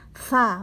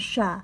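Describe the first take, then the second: First: The consonant is a th sound. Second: The consonant is a sh sound. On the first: The speaker calls it right. "tergigit eh, lidah kita oleh gigi atas" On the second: The speaker calls it wrong. "bukan sya"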